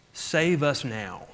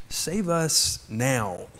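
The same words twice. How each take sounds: First: Said in the usual way. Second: "Save us now" said slowly, each word drawn out; slow down and let "Save us now" sink in; slow solemn repeat. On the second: Shown as a demonstration. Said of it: "a word that means save us now".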